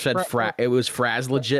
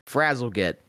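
First: The name is split after 'Fraz', ending 'legit'. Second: The name is split after 'Frazzle', ending 'git'. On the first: The speaker calls it wrong. "I thought it was Fraz legit, and I'm like, that doesn't sound right" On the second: The speaker calls it right. "that sounds better"

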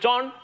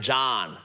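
First: It is said in a Chinese manner. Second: It is said in an American accent.

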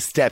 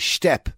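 First: It is said in an ordinary, plain accent. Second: It is said in an exaggerated Irish garda accent. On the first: The speaker calls it wrong. "you don't say step" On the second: The speaker calls it right. "They tell you in Temple Moor how to say, ... you say step"

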